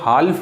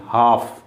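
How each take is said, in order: First: The L sound is pronounced in the word. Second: The L sound is left out of the word. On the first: The speaker calls it wrong. "हाल्फ नहीं पढ़ेंगे" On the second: The speaker calls it right. "हाफ एल silent है"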